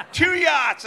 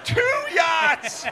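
First: High, loud outraged repeat; shouted disbelief. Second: High, loud shout of disbelief. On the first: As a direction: shout it again, still stunned. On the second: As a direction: yell it, stunned. Repeated in disbelief. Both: Retold or imitated.

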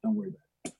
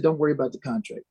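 First: Soft whispered reassurance; hushed, secretive aside. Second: Said in the usual way. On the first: Retold or imitated. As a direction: lean in and whisper it so nobody hears.

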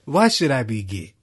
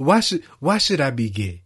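First: Louder, stress on why, falling; hammed-up offended protest; mock indignant guest again. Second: Louder, stress on why, falling; imitating the offended denial; hammed-up offended protest; mock indignant guest. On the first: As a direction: repeat the offended denial. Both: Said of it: "And then he said".

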